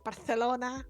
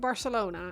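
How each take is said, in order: First: It is said with a Spanish-style pronunciation. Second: It is said with a plain English pronunciation. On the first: The speaker is showing off knowledge of the local pronunciation. The speaker calls it wrong. "these really obnoxious people who go, ah, actually, it's Barcelona" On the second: The speaker says it normally, without showing off. The speaker calls it right. "if you're not Spanish, saying Barcelona is absolutely fine"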